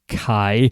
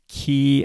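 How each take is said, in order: First: The word sounds like 'kai'. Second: The word sounds like 'key'. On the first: The speaker calls it wrong. "I always pronounced it Kai" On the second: The speaker calls it right. "So it's pronounced key"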